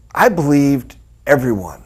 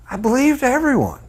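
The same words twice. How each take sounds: First: Said in the usual way. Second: Naive. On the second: Shown as a demonstration. Repeats line, second take marked.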